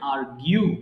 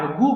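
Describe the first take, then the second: First: The word ends with a gyoo sound. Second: The word ends with a plain goo sound. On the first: The speaker calls it right. "But এটা correct pronunciation আর্গিউ" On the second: The speaker calls it wrong. "এটাকে ভুল করে অনেকে আর্গু বলে"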